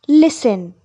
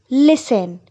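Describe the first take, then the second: Both takes have the same delivery.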